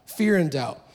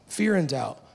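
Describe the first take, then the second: No difference in how they are said.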